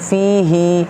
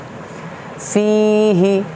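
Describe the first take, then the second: First: The final vowel after h is drawn out long. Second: The final vowel after h is short. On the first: The speaker calls it wrong. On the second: The speaker calls it right.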